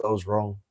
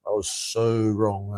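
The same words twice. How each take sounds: First: Said in the usual way. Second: So stretched long and leaned on, slowly; a rueful, slow so; stress on so. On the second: Shown as a demonstration. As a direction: drag out the word so for emphasis.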